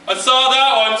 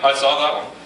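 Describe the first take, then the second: First: It is said at the loudest volume. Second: It is said at the quietest volume.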